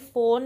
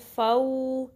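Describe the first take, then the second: First: The vowel is a single plain o sound. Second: The vowel glides from a to rounded u. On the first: The speaker calls it wrong. "Directly फ़ो नहीं पढ़ना" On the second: The speaker calls it right. "बल्कि फ़ऊ"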